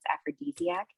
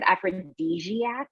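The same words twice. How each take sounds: First: The middle consonant sounds like a plain D. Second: The middle consonant sounds like a J. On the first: The speaker calls it right. "but it's aphrodisiac" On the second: The speaker calls it wrong. "with like a "j,""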